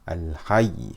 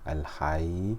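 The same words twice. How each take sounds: First: The voice rises slightly on the final doubled letter. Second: The final letter is said plainly, without raised voice. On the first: It shows the final letter is doubled. The speaker calls it right. "we raise the voice slightly" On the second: It sounds like there is only one letter. The speaker calls it wrong. "I will not say al-hayy"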